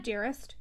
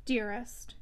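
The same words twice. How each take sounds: First: Tender. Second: Soft, tender endearment. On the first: Tender aside mid-argument. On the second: Stephen leaning close to Maggie, soft tender endearment. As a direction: draw her in gently, softer. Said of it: "his deepest, tenderest tone". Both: A narrator's reading.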